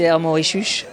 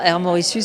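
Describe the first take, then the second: First: The s in Mauritius sounds like sh. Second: The s in Mauritius sounds like plain s. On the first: This is how locals say it. "tous les S sont cheux" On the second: This is not how locals say it. "c'est pas Air Mauritius"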